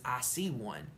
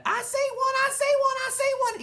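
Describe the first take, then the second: First: Said in the usual way. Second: Very high, loud thrilled shout; shouting through a hand. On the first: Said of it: "Stop shouting the words". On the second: Acted. Sheldon shouting through Junie B's hand, thrilled shout. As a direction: shout it right through the palm. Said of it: "he shouted".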